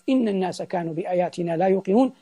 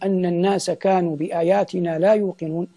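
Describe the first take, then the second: First: The first word begins with an 'i' vowel. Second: The first word begins with an 'a' vowel. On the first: These words start a new statement, not the creature's speech. "لكن إن جئنا بكسر الهمزة" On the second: These words are part of the creature's speech. "بفتح الهمزة"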